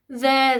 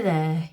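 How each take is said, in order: First: Higher, louder "There"; soothing. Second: Soothing. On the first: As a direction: open the comfort with "There" lifted. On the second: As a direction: settle the comfort with "there" lower. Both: Acted. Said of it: "reaching out to comfort him".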